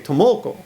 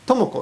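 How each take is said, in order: First: The name is said with one syllable accented. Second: The name is said with flat, even pitch. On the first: The speaker calls it wrong. "But they say Tomoko" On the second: The speaker calls it right. "Tomoko is correct"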